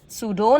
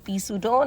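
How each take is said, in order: First: The word begins without any P sound. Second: The word begins with a sounded P. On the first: The speaker calls it right. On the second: The speaker calls it wrong.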